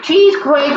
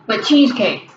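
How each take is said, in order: First: "Cheese quake" with a high push on "Cheese"; "Cheese quake" said like earthquake, with a lift. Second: Said in the usual way. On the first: Shown as a demonstration. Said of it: "like an earthquake".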